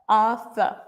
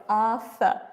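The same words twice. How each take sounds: Both takes have the same delivery.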